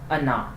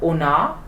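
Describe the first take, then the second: First: The first vowel sounds like a short 'a'. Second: The first vowel sounds like a full 'o'. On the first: The speaker calls it right. "O is unstressed and pronounced as a" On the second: The speaker calls it wrong. "Not Ona"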